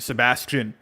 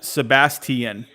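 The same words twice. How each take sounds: First: It is said plainly and reduced, the Florida way. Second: Every sound is pronounced out, the English way.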